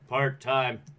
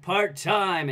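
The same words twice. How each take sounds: First: It is said flat, without energy. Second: It is said lively, with energy.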